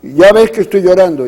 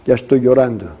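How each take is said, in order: First: A touch of tearful pleading, a little louder; quoting her through mild tears; crying words. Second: Softer, subdued tearful admission; letting the tears slip out quietly; quiet crying words. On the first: (llorando un poco, con algo más de fuerza) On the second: (llorando bajito, apagado) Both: Retold or imitated. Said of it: "primero a llorar".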